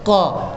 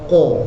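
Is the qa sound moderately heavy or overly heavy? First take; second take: moderate; overly heavy. First: The qa is only moderately heavy, not exaggerated. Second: The qa is exaggerated and sounds overly heavy. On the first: The speaker calls it right. "jangan lebih, sebab dia bukan itbaq, dia infitah, dibuka, tetapi pangkal lidah terangkat, jadi bunyinya qa" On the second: The speaker calls it wrong. "jangan bunyinya qa"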